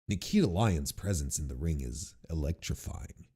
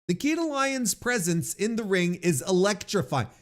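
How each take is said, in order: First: It is read in a different, put-on voice. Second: It is read in the speaker's ordinary voice.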